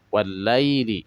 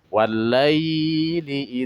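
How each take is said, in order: First: The 'ai' sound is short and light. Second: The 'ai' sound is stretched out long. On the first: The speaker calls it right. "dibacanya hanya dilembutkan saja" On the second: The speaker calls it wrong. "bukan walaili ... tidak dipanjangkan"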